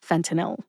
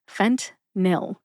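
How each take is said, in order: First: The word is said with three syllables. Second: The word is said with two syllables. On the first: "the correct pronunciation is fentanyl. Three syllables" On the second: "I say fentanyl as a two-syllable drug name"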